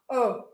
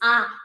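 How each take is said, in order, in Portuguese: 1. A vogal é dita com a boca quase fechada. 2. A vogal é dita com a boca bem aberta. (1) "se eu for tentar falar A com a boca fechada, vai sair assim" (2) "Eu preciso dessa, boca, dessa embocadura, dessa abertura de boca"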